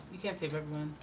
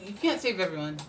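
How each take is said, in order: First: Softer repeat. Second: Said in the usual way. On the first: Shown as a demonstration. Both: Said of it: "repeated point".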